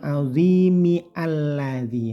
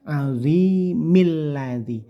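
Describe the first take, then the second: First: The alif of alladzi is pronounced separately. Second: The alif is skipped, linking straight into lam. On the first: The speaker calls it wrong. "ini bukan azimi alladzi" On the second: The speaker calls it right. "tapi azimil ladzi. Langsung ke huruf lam"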